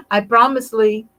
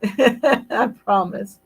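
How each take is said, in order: First: Emphatic promise. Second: I promise, slow, through a laugh. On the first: Host promising a viewer she'll hug Rod, loud playful promise. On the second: Host repeating her promise to a viewer, laughing slowly. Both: Real, not acted.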